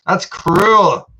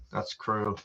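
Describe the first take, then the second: First: Higher and louder, playful protest; mock outrage. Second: Much softer, lower mock grumble; muttered aside. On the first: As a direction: cry out in fake indignation. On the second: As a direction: mumble it again to himself. Repeats the protest quietly.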